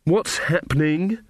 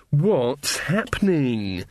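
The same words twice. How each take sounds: First: Higher, rising question on "What's happening?"; "What's happening?" as a surprised query; puzzled question. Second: Long, drawn-out plaintive question, falling at the end; slow wail of confusion, lightly acted; complaining. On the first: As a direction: ask "What's happening?" with the voice lifting at the end. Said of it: "said Ella". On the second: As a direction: stretch it out as a bewildered complaint. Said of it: "complained Ella". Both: A narrator's reading.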